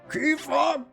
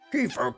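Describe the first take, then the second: First: The character voice sounds younger. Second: The character voice sounds older. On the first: The speaker calls it wrong. "No, that was not the voice I gave him" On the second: The speaker calls it right. "I tried to make it a bit older"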